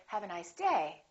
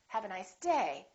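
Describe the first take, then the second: First: The pitch falls at the end. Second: The pitch falls at the end.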